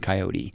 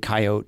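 First: The word is said with three syllables. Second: The word is said with two syllables. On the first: Coastal or non-rural people use this form. "people from the coast or either side or non-rural will typically say coyote" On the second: This form is simpler and quicker to say. "I always say coyote ... just by losing that extra syllable"

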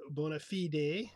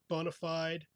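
First: It is said with a Latin pronunciation. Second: It is said with an English pronunciation.

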